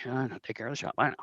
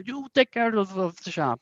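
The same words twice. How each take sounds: First: Much softer, offhand acknowledgement; employee's reply. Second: High-pitched boss with a fake Korat accent; hammy Korat accent, pitched up; Mister Meow. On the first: Acted. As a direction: answer the boss quietly, in an unaccented voice. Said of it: "And he's like". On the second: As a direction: give orders in a bad Korat accent. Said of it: "very thick, um, Korat accent".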